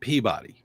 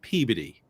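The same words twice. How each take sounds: First: It is said the way outsiders say it. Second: It is said the way local residents say it. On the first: The speaker is not from the town. "if you're from outside of the town, um, everybody calls it Peabody" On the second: The speaker lives in the town. "everybody that lives there calls it Peabody"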